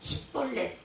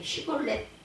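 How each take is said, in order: First: The word begins with a plain 's' sound. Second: The word begins with a 'sh' sound. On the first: This is how the Ephraimites said it. The speaker calls it wrong. "에브라임 사람들은 시볼렛" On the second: This is the form the Ephraimites could not say. The speaker calls it right. "그런 발음을 하지 못하고"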